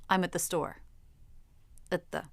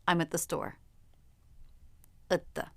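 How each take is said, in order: No difference in how they are said.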